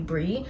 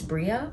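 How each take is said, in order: First: It ends on 'ee' with no final vowel. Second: It ends with an extra 'uh' vowel after 'ee'. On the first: The speaker calls it wrong. "people don't pronounce the A for some reason and they just call me" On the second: The speaker calls it right. "You do pronounce the A"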